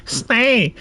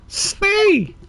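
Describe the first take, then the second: First: Higher, nasal command to the elephant; nasal animal tamer. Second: Much higher, firmer nasal command; nasal animal tamer. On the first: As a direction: call the elephant to stop in a nasal girl's voice. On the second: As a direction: order the elephant to stop, high and insistent. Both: Acted. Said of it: "let's give her a nasal one".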